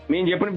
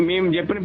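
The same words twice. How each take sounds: The two takes are said the same way.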